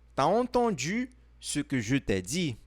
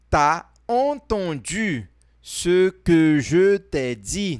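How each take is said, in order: First: The sentence is spoken at a normal, quicker pace. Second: The sentence is spoken slowly and deliberately.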